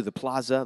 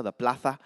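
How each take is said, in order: First: Said in the usual way. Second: Plaza said the Castilian way, with a th for the z; Spanish pronunciation. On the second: Shown as a demonstration. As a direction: lisp the z in plaza, like "PLA-tha".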